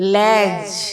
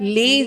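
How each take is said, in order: First: The word has an open "ya" vowel. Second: The word has a closer "e" vowel. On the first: This is the pronunciation used in the poem. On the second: This is the everyday modern pronunciation.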